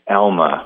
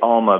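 First: The name is said in an American way. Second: The name is said in a Canadian way. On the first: This is how Americans usually say it. "the American thing is Alma" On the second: This is the speaker's own way of saying it. "I say Alma"

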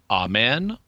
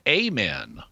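First: The stress is on the second syllable. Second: The stress is on the first syllable.

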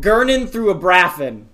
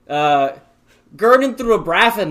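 First: It is said in the speaker's plain accent. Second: It is said in a put-on English accent.

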